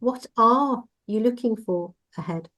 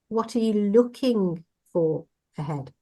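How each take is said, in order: First: The stress is on "are". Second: The stress is on "looking".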